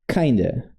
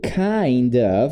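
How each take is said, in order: First: The two words merge into one reduced word. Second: Both words are pronounced fully and separately.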